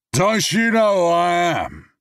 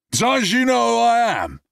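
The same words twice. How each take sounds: First: High, loud, slow slurred boast; drunken bravado. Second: High, loud slurred threat; drunken bravado. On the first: Drunk man to James, loud slurred boast. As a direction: ham up the drunk self-importance. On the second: Drunk man threatens Brad, loud high slurring. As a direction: bark it drunkenly. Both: Acted.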